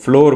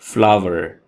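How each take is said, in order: First: The word is said with an 'or' vowel. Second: The word is said with an 'ow-er' vowel. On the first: The speaker calls it wrong. "जो कि बिल्कुल गलत है" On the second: The speaker calls it right. "इसकी सही pronunciation है फ्लावर"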